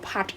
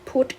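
First: The vowel is open, like in 'but'. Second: The vowel is rounded, like in 'foot'. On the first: The speaker calls it wrong. "ไม่ได้อ่านว่าพัด" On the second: The speaker calls it right. "แต่อ่านว่าพุทธ"

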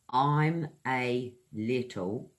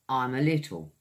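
First: The words are said separately. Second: The words run together without breaks.

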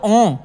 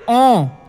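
First: The vowel sounds loose and unclear. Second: The vowel sounds clear and focused. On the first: The speaker calls it wrong. "वरना तो ओं ऐसे भी बोला जा सकता है" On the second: The speaker calls it right. "एक ओं ऐसे बोलोगे तो प्रॉपर निकलेगा साउंड"

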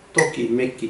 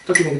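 First: The word is said at a slow tempo. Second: The word is said at a fast tempo. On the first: "ちょっと遅くして、70" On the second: "170 いけるかな"

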